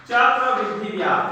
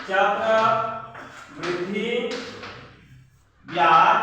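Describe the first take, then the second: First: Said in the usual way. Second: Extremely slow, each word stretched; drawn-out dictation. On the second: Real, not acted. Teacher repeating the answer's heading while writing, drawn-out dictation. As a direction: pause long between the two words as you write.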